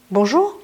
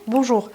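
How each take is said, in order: First: "Bonjour" with a rising ending; greeting as question. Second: "bonjour" with a falling ending; greeting as reply. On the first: Teacher models greeting someone first, rising tune on Bonjour. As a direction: offer "Bonjour" with an upward lilt. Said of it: "Je vous dis Manaon et vous me répondez". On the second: Teacher models returning the greeting, falling tune on bonjour. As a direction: return "bonjour" with the pitch coming down. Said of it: "vous me répondez Manaon". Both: Shown as a demonstration.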